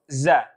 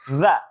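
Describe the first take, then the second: First: The consonant is a plain z sound. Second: The consonant is a voiced th sound. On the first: The speaker calls it wrong. "huruf za-nya lidahnya ke dalam, maka dia seperti membaca huruf za" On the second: The speaker calls it right. "sedikit dikeluarkan lidahnya"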